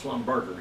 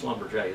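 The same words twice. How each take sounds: First: The name is said the English way. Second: The name is said the French way. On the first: The speaker calls it wrong. "It's Schlumberger, you know" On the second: The speaker calls it right. "That's how you say it"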